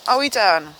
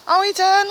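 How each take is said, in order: First: Said in the usual way. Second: "done" much higher and louder; high incredulous. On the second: Real, not acted. Vlogger surprised the poem ended, incredulous. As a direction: ask it again in disbelief.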